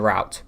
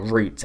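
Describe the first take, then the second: First: Route is said with a non-British pronunciation. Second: Route is said with a British pronunciation. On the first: The speaker calls it wrong. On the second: The speaker calls it right.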